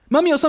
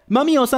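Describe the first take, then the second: First: It is said at a quicker pace. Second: It is shouted at an unhurried pace. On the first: "Digámoslo más rápido" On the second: "gritemos juntos"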